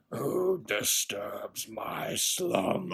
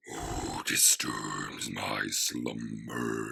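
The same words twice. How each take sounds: First: Slow, rumbling stone cave voice; Cave of Wonders voice. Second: Very deep, very slow rumbling voice; Cave of Wonders voice. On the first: Retold or imitated. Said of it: "kinda sounded like the Cave of Wonders". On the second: Shown as a demonstration. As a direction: boom it out like a giant stone cave. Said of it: "let me clear my throat and I can actually do that".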